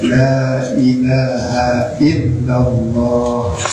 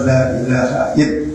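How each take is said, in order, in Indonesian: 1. Frasanya mengalir terus tanpa putus. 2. Frasanya terputus setelah "ill". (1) "yang betul hurufnya dan lafaznya yang betul" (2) "Jangan la ilaha ill"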